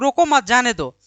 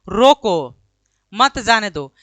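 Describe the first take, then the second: First: The pause comes right after 'mat'. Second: The pause comes right after 'roko'.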